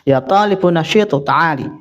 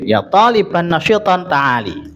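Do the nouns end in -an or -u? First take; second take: -u; -an. First: The two nouns end in a short -u sound. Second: The two nouns end in an -an sound. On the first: "Boleh dibaca dhamma" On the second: "itu kalau nasab ya ditanwin"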